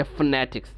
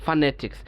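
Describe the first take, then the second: First: "ফোনেটিক্স" as fne-tiks, no vowel after f; native elided pronunciation. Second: "ফোনেটিক্স" as fa-ne-tiks, vowel kept; taught full form. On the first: Teacher showing students how a native says it, "ফোনেটিক্স" elided to fnetiks. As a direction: run f straight into n in "ফোনেটিক্স". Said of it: "আপনারা যখন শুনবেন একটা native". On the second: Student quoting what teacher taught, "ফোনেটিক্স" with full fa. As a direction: open the first syllable of "ফোনেটিক্স" to fa. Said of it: "আপনি তো শিখিয়েছিলেন এখানে ফা". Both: Retold or imitated.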